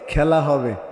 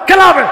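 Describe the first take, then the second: First: The phrase is said at a slower pace. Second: The phrase is said at a quick pace. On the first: One politician's way of saying it. "এটা তো এইভাবে বলতো।" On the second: Another politician's way of saying it. "এরকম করে দ্রুত বলতো আর কি।"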